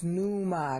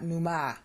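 First: "numa" with weight on the NU; stress on first syllable. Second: "numa" wrongly stressed as nu-MA; stress on last syllable. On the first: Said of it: "not numa". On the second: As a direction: land on the MA of "numa". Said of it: "it's numa, not numa". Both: Shown as a demonstration.

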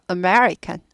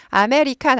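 First: American as uh-MER-ikan, me punched, rest weak; stress on me. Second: 아메리칸 in even full syllables, a-me-ri-kan; Korean-style American. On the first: Teacher correcting learners, stressed-me American. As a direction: hit the second syllable of American. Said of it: "매만 들리면 돼요". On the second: Teacher showing the wrong way, Korean-style American. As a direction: clear a vowels in 아메리칸, no stressed syllable. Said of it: "아메리칸 아니고". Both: Shown as a demonstration.

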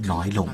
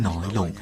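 Both takes have the same delivery.

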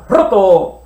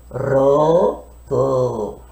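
First: Said in the usual way. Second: Put-on lower, babyish roto; baby talk. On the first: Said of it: "sino leemos tal como hablamos". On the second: Shown as a demonstration. Teacher mimics a baby for the class. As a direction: say it like a little baby. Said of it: "Ya no decimos como los bebitos".

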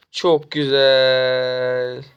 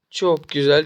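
First: "Çok güzel" stretched very slowly, savoring each word; drawn-out delight. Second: Said in the usual way. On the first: Real, not acted. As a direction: really savor "Çok", drag it out. Savoring tower kill in game.

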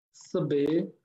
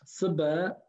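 First: Sebe ending in a closed é; careful model of sebe with final é; sebe variant. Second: Seba ending in an open a; careful model of Seba with final a; seba variant. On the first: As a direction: close the last vowel of sebe to é. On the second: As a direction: open the last vowel of Seba to a. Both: Shown as a demonstration. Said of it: "Ok, les deux".

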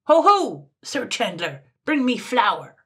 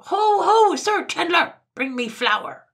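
First: High, loud opening shout, then demanding order; loud summons; top-of-voice call. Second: Very high full-force yell throughout; piercing imperious shout; louder cry. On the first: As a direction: hail the shopkeeper imperiously. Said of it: "called out at the top of his voice". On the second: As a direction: bellow the whole summons furiously high. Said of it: "cried again louder than before". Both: A narrator's reading.

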